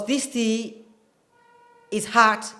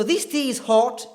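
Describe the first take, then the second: First: American "hot" said like "haht"; American accent. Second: British RP "hot" with rounded O; higher-pitched British demo of "hot"; British accent. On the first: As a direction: open "ah" in "hot", General American demo. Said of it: "typical American accent". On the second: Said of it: "is typical British accent". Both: Shown as a demonstration.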